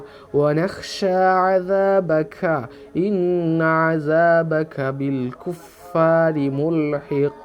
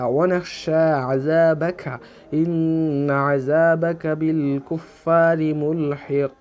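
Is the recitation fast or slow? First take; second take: slow; fast. First: It is recited slowly and steadily. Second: It is recited at a faster speed. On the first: "ধীরে স্থিরে" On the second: "একটু স্পিডে পড়লেও"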